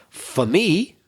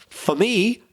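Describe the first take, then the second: Both takes have the same delivery.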